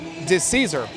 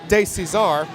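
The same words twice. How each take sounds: First: The surname is said with a plain, non-French pronunciation. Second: The surname is said with a French-sounding pronunciation. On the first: The speaker calls it right. "the correct pronunciation of the name is actually" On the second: The speaker calls it wrong. "I did make it sound like a good French name"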